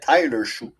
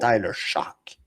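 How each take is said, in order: First: The surname ends in a vowel sound. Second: The surname ends in a K sound. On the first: The speaker calls it wrong. "je l'appelais Tyler Chou" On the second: The speaker calls it right. "le G et le H ne se se prononcent comme un K"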